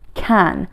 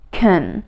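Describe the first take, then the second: First: The vowel is full, long and stressed. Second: The vowel is reduced, short and unstressed. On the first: The speaker wants to emphasize the word. "you say it strong" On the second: The word is said quickly with no special emphasis. "we usually pronounce it like can"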